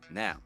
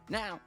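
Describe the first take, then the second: First: It is said in his natural voice. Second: It is said in a put-on old-man voice.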